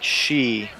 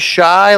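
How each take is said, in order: First: The vowel sounds like the word see. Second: The vowel sounds like the word eye. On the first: The speaker calls it wrong. "or is it more like she?" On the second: The speaker calls it right. "Do they say shy like that"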